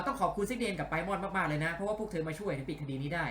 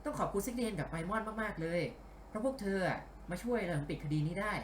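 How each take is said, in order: First: Lightly voiced male colleague, more direct; Ryuji. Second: Lightly put-on female voice; Sango. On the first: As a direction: redo the thanks as a man, less lilting. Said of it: "ตะกี้เป็นเสียงริวจินี่หว่า เอา ขอ ขอใหม่". (พากย์เสียงผู้ชายแบบเป็นกันเอง) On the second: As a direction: dub it as a woman, slightly lifted. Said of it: "ไม่ใช่เสียงซังโงะ ทำไมพากย์เสียงผู้หญิง". (พากย์เสียงผู้หญิงเบาๆ)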